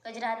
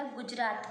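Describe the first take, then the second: First: गजरात with a plain short a after g; गजरात read as the misspelt form; wrong pronunciation. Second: गुजरात with a clear short u after g; गुजरात read as the corrected form; correct pronunciation. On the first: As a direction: say गजरात as ga-jraat, no u. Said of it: "गजरात नहीं होता". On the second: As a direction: say गुजरात as gu-jraat. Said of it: "गुजरात होता है". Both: Shown as a demonstration.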